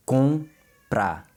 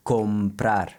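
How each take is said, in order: First: Comprar slow with a nasal com, lips not touching; nasal vowel. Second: Comprar with the lips closing on com; the English-speaker comprar, lips together; foreigner's m. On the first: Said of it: "make sure your lips don't touch". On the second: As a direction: comprar with a closed m. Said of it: "natural to want to pronounce it". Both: Shown as a demonstration.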